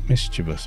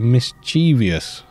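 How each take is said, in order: First: The word is said with three syllables. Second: The word is said with four syllables. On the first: The speaker calls it right. "It's mischievous, apparently" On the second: The speaker calls it wrong. "put an extra syllable in there"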